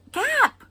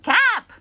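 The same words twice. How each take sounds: First: Put-on high, loud insistent toddler yell; toddler shout repeated. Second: Put-on high, loud toddler yell; toddler shout. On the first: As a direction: kid insisting again. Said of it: "I was like, "What?". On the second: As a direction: shout it like a tiny kid. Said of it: "she's like".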